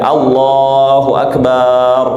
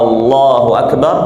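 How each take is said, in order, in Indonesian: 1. Suku kata 'ba' dipanjangkan. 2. Vokal 'a' di awal dipanjangkan. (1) "memanjangkan uh, ba" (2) "dengan memanjangkan hamzah"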